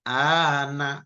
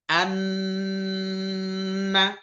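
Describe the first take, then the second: First: The a is drawn out before a single n. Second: The n is held doubled with a nasal hum. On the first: The speaker calls it wrong. "Jadi seperti a-nya itu memanjang" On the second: The speaker calls it right. "langsung masuk ke bacaan nun dan ditahan dengan dengung"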